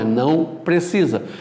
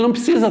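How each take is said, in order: First: The word não is fully and carefully pronounced. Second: The word não is reduced and careless. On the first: The speaker calls it right. "Não, é não precisa" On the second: The speaker calls it wrong. "Lá em casa a gente fala de qualquer jeito"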